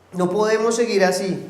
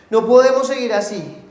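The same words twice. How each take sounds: First: Said in the usual way. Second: No podemos seguir así, louder and higher, podemos hit hard; emphatic repeat. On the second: Shown as a demonstration. Pastor repeating his point to the congregation, emphatic. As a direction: drive it home the second time.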